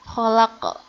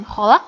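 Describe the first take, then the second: First: Kholak with the final k bounced; qalqalah bounce. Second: Kholak ending flat, k swallowed; no bounce. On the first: Teacher shows the right bounced ending. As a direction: release the end of kholak with a bounce. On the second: Teacher shows the wrong unbounced ending. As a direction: cut kholak off without echo. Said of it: "Bukan kholak". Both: Shown as a demonstration.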